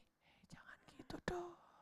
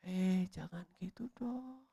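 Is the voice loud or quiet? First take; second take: quiet; loud. First: It is said in a very quiet voice. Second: It is said in a fairly loud voice.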